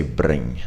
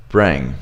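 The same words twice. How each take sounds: First: Trilled R in BRING; harsh R. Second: Low, falling BRING with a soft R; soft American R. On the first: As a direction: BRING with a hard, rolled R. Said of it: "It sounds so different when you say". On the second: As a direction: BRING with a smooth, untrilled R. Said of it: "It sounds so different". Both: Shown as a demonstration.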